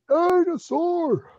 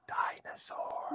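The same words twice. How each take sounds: First: It is said loudly. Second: It is said softly.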